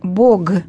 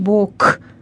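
First: The word ends in a voiced g sound. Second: The word ends in a voiceless k sound. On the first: It is the form used in Church Slavonic prayer. "в молитве мы говорим «Бог" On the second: It sounds like the word for a side of the body. "И не говорим «Бог», «левый Бог», «правый Бог»"

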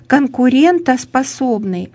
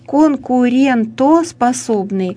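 No difference in how they are said.

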